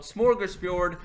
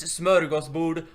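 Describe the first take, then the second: First: "smorgasbord" with English o and a sounds; anglicised pronunciation. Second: "smörgåsbord" with Swedish ö and å, loud; Swedish pronunciation. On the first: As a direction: mimic the English way of saying "smorgasbord". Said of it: "not smorgasbord". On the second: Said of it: "it's smörgåsbord". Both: Shown as a demonstration.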